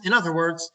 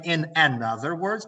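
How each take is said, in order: First: "other" stressed, with no an before it; clean, firm stress on "other"; correct phrase. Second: "another" with its first syllable picked out; stress on wrong word. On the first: Teacher gives students the correct phrase, stressing "other". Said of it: "another is used only with singular countable nouns". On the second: Teacher warns students off a mistake, stressing "another". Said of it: "So please do not say". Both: Shown as a demonstration.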